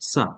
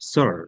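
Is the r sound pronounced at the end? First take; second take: dropped; pronounced. First: The final r sound is dropped. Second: The final r sound is pronounced. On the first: "আর বলে না" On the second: "আমেরিকানরা আর"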